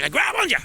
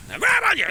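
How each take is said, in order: First: Higher, emphatic "They grab on you"; excited warning; raised. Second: Much higher, squealing "they grab on you"; hammed-up squeal; squeaky. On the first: Acted. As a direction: say it with rising alarm. Repeats phrase, second more extreme. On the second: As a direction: squeal it in mock alarm. Repeats phrase, pitch jumps further.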